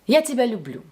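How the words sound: Neutral stress falls on the last word. A plain, neutral declaration of love. "This sounds calm and natural, and in Russian we usually lower our voice on the last stressed word"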